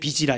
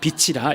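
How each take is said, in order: First: The consonant before -ira is a soft j. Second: The consonant before -ira is an aspirated ch. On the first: It sounds like the word for debt. The speaker calls it wrong. "이렇게 얘기하면 안 되는 거죠" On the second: It means light. The speaker calls it right. "이렇게 얘기해야 되는 거죠"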